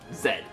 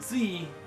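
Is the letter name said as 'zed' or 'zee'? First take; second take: zed; zee. First: The letter name ends with a 'd' sound. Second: The letter name ends with an 'ee' vowel. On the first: The speaker calls it right. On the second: The speaker calls it wrong. "not Z"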